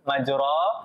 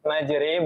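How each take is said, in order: First: The vowel after r is a full open a. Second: The vowel after r is tilted toward e. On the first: This is the regular reading that follows the general rule. "bukan majro" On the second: This is the unusual reading that breaks the general rule. "imalah kok jadi majri"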